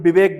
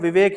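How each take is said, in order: First: The name begins with a b sound. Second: The name begins with a v sound. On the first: "उसको यहाँ पे विवेक बोलेंगे" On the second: "अगर किसी व्यक्ति का नाम विवेक है"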